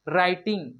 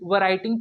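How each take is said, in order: First: It starts directly with the r sound. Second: A w sound is heard before the r. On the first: The speaker calls it right. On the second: The speaker calls it wrong.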